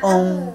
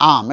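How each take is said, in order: First: "ওম" said with the mouth barely open so "আম" turns into "ওম"; half-closed mouth. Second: "আম" with the mouth wide open on the "আ"; open-mouthed aam. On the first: Teacher showing class the lazy closed-mouth "ওম". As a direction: keep the mouth nearly shut and say "ওম". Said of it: "পুরোপুরি হা না করে বলো". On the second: Teacher showing class a clear open "আম". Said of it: "মুখটাকে হা করতে হবে". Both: Shown as a demonstration.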